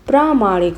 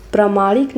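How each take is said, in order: First: प्रामाणिक with a long first vowel, "praa-MAA-nik"; correct pronunciation. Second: प्रामाणिक with a short first vowel, "pra-MAA-nik"; wrong pronunciation. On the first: Teacher corrects for students, प्रामाणिक said with long first aa. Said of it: "प्रामाणिक होता है". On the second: Teacher shows students the error, प्रामाणिक said with short first a. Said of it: "प्रामाणिक नहीं होता है". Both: Shown as a demonstration.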